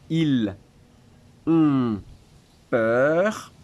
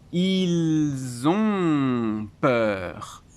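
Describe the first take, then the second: First: Each word is said separately, without linking. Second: Said faster, with the first two words linked. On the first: "si je lis mot après mot" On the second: "si je lis un peu plus vite, je fais une liaison"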